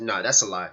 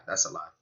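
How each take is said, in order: First: Said in the usual way. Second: Quiet repeat. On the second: Real, not acted. Streamer reacting to the clip, muttering it again quietly. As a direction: drop it to a soft mutter.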